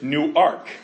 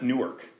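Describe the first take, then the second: First: The name is said as two separate words. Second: The name is said as one blended word. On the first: The speaker calls it right. "It's like it's two words" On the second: The speaker calls it wrong. "it's not Newark"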